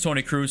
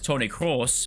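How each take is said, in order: First: The surname is said like English 'Cruz'. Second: The surname is said with a German vowel. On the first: The speaker calls it wrong. "So this one is Tony Cruz" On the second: The speaker calls it right. "this one is Tony Kroos, or along those lines"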